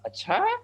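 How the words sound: It sounds like a doubtful, surprised question.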